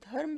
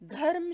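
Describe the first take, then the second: First: No vowel is heard between r and m. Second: A vowel is heard between r and m. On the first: The speaker calls it right. "र जो है वो आधा है, बिना आ वाला" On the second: The speaker calls it wrong. "र पूरा है और आ का उच्चारण भी हो रहा है"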